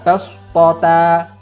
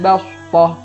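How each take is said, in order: First: The word ends with a t and an a. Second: The word ends with a silent-vowel h sound. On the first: The speaker calls it wrong. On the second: The speaker calls it right.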